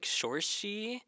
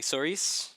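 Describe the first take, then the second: First: The name ends with a 'shee' sound. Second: The name ends with a 'ris' sound. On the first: "I think it's supposed to be like Sorshi" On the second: "I've been pronouncing it like Soris"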